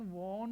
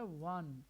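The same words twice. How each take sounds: First: वॉन with a rounded "aw" vowel; वॉन with an open o sound; wrong pronunciation. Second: वन with a short "uh" vowel; वन unrounded, no aw sound; correct pronunciation. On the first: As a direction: say वॉन like "wawn". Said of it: "इसका pronunciation वॉन नहीं है". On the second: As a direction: say वन like the number "one". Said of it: "इसका pronunciation है वन". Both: Shown as a demonstration.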